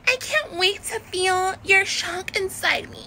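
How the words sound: It is said in an exaggerated Valley Girl style. "Like a Valley Girl will be like"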